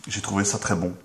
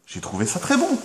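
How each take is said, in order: First: Said in the usual way. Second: "J'ai trouvé ça très bon" said much higher, rising on "bon"; high delighted repeat. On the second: Shown as a demonstration.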